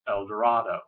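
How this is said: It uses the widespread, common pronunciation of the name. This is how most people say it. "Most people will pronounce this El Dorado"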